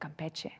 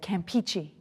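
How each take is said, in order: First: The name is said with a Spanish-style pronunciation. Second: The name is said with an English-style pronunciation. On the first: The speaker calls it right. "instead of Campeche" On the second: The speaker calls it wrong. "I said Campeche instead of"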